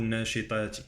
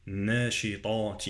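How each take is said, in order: First: Quick "ناشطات" with a thin plain t; wrong light ta. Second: Drawn "ناشطات" with heavy back ta; emphatic ta. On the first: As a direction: mistaken "ناشطات", light t and front vowel. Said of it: "لا أقول". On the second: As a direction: darken the vowel after ta in "ناشطات". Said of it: "والطاء مفخمة". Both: Shown as a demonstration.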